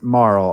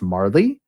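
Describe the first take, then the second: First: The name ends on a plain L sound. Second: The name ends with an added 'ee' sound. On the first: The speaker calls it right. "I also pronounce it Marl" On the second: The speaker calls it wrong. "I've heard it pronounced Marley"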